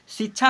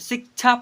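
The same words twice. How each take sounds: First: The middle sound is a plain 'chh' without k. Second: The middle sound is 'ksh' with a k sound. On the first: The speaker calls it wrong. "शिक्षा नहीं पढ़ेंगे" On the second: The speaker calls it right. "शिक्षा पढ़ते हैं, क के उच्चारण भी होता है"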